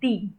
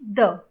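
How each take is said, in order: First: The vowel is a long, clear ee sound. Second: The vowel is a short, weak uh sound. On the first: It comes before a vowel sound. "T H E E" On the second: It comes before a consonant sound. "that is T H U H"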